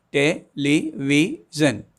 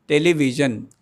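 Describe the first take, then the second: First: "television" slowly, four separate beats, te-le-vi-sion; "television" drawn out beat by beat; syllables spelled out slowly. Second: Said in the usual way. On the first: Shown as a demonstration. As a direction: stop four times in "television". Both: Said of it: "because I am stopping four times".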